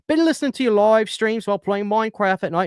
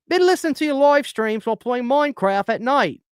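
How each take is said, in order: First: It is spoken in a British accent. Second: It is spoken in an attempted Australian accent. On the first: "Actually, that was a British accent" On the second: "I can't do an Australian accent"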